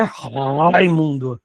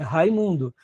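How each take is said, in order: First: Raimundo with a long, exaggerated throaty R; slow, low Raimundo with a heavily guttural first sound; overdone guttural R. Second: Said in the usual way. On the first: Shown as a demonstration. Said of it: "têm mais uma sonoridade mais gutural". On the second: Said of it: "não é Raimundo".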